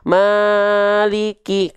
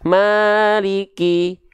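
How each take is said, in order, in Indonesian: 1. Vokal panjang dipanjangkan terlalu lama. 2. Vokal panjang ditahan stabil tanpa diayun. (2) "kalau kita matobi'inya nggak kita ayunkan ya sah saja"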